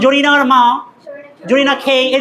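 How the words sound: The final syllable is said with an aspirated 'kh'. A foreigner is saying it. The speaker calls it wrong.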